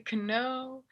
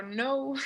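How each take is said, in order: First: "que no" as know with the K sounded, k-no; wrong pronunciation of know. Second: "no" with silent K, starting on the n; correct pronunciation of know. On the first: Teacher warns students how not to say it, "que no" for know. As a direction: put a hard k before the n in "que no". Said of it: "no se dice que no". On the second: Teacher shows students the word, "no" without any k. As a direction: say "no" as English know, just like the word no. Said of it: "es solo no". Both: Shown as a demonstration.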